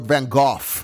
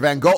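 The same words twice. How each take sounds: First: The name ends in an F sound. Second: The name does not end in an F sound.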